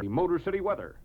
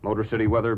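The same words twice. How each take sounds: First: It is said excitedly, with lively energy. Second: It is said flatly, with little energy. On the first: The speaker calls it right. "It's got to be exciting" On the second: The speaker calls it wrong. "Some people come on and they'll say"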